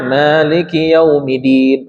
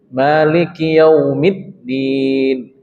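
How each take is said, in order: First: The d near the end is short and single. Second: The d near the end is held and doubled. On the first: The speaker calls it wrong. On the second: The speaker calls it right.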